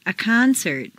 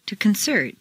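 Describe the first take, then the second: First: CONcert, stressed on the first syllable. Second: ConCERT, stressed on the second syllable. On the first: Teacher models noun "concert", first-syllable stress. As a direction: hit CON in "concert". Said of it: "first syllable for nouns". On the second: Teacher models verb "concert", second-syllable stress. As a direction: hit CERT in "concert". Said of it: "to the second syllable". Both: Shown as a demonstration.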